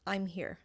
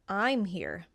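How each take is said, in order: First: The stress is on here. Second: The stress is on I'm.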